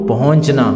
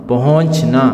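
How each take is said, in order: The two takes are said the same way.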